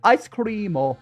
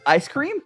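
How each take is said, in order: First: It is said with a Japanese accent. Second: It is said with a plain English accent.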